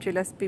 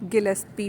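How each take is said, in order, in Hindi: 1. इस नाम की शुरुआत J ध्वनि से होती है। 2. इस नाम की शुरुआत कठोर G ध्वनि से होती है।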